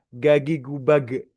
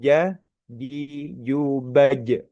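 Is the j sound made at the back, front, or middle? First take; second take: back; middle. First: The j is made far back, sounding like g. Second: The j is made with the middle of the tongue. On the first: It sounds like an Egyptian speaker. The speaker calls it wrong. "pakai lidah belakang gagi gubage gitu ya seperti orang Mesir" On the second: This is the correct Quranic pronunciation. The speaker calls it right. "Yang betul, yang tepat adalah lidah tengah. Jadi jubaj seperti itu"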